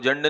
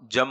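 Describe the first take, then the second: First: The word is said with a doubled n sound. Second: The word is said with a doubled m sound. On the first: The speaker calls it wrong. "लेकिन वो जन्न नहीं होता" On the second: The speaker calls it right. "जम हो जाता है"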